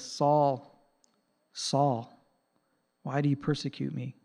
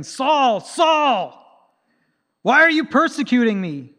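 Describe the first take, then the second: First: Quiet, tender plea from Jesus; gently grieved, not angry; compassionate. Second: Much higher and louder, an angry accusation. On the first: Retold or imitated. Jesus pleading softly with Saul, compassionate. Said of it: "I think he had compassion". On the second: Shown as a demonstration. How Jesus did not speak to Saul: loud angry rebuke. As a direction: bark the name twice in fury. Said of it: "I don't think he said it angrily".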